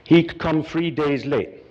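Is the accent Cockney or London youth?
London youth. It is said in a London youth accent.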